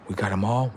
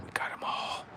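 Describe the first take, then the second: First: Said in the usual way. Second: Breathy whispered repeat; eerie whisper. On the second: Acted. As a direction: whisper it to yourself. Unvoiced repeat.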